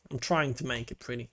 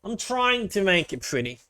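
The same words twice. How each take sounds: First: Muttered to self. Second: Said in the usual way. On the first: Real, not acted.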